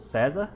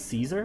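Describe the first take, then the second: First: The name has a Brazilian Portuguese pronunciation. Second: The name has an American English pronunciation. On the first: "I'm Brazilian, so César" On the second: "Americans pronounce this Caesar"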